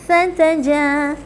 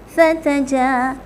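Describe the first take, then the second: Both takes have the same delivery.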